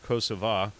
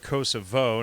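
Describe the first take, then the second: First: The name is said in the Albanian form. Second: The name is said in the non-Albanian form. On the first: This is the form Albanians use. "the Albanian pronunciation of Kosova" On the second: The speaker declines to honor the Albanian form. "And I say Kosovo"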